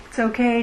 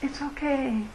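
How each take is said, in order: First: Said in the usual way. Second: Soft and reassuring "It's okay"; soothing reassurance. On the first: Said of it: "if the Dalai Lama were telling me". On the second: Shown as a demonstration. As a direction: breathe "It's okay" gently, like comforting a friend. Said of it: "Maybe it would be just".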